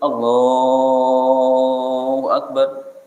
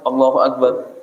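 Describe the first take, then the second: First: The phrase is drawn out slowly. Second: The phrase is said quickly. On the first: There is time to form the intention while saying it. The speaker calls it right. "takbir pertama itu panjang karena dia membarengkan niat itu" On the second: It is hard to form the intention while saying it. The speaker calls it wrong. "jika takbirnya cepat"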